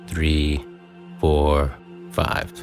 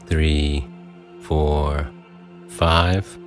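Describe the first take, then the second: No difference in how they are said.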